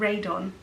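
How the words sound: The name is said with an English accent. The speaker calls it wrong. "I tend to go East Kent and end up saying Radon"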